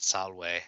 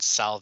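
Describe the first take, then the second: First: The word is pronounced the Latin way. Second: The word is pronounced the English way. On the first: The speaker calls it right. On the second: The speaker calls it wrong.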